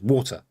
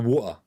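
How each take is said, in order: First: The T sound in the middle is clearly pronounced. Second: The T sound in the middle is dropped. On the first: This is how the speaker says it. "I pronounce the T" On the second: This is how many people say it. "So many people go water"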